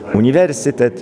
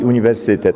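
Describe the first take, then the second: First: The stress is on the third-to-last syllable. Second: The stress is on the second-to-last syllable. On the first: This is the traditional formal pronunciation. The speaker calls it right. "przycisk padający na trzecią sylabę od końca" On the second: This is the familiar everyday pronunciation. The speaker calls it wrong. "ten akcent swojski na przedostatnią sylabę"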